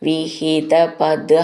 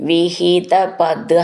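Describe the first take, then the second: The two takes are said the same way.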